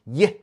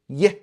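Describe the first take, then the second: No difference in how they are said.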